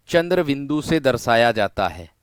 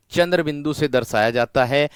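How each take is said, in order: Both takes have the same delivery.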